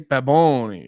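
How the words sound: The name is said in an exaggerated Spanish accent. "every time a Spanish person says it, they say Baboni"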